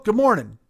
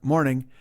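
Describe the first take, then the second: First: High, hearty good morning; enthusiastic greeting. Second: Said in the usual way. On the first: Retold or imitated. Stranger hails two racers he just met, enthusiastic. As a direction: greet like an over-eager race fan, pitched up. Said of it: "He's all enthusiastic and inspired".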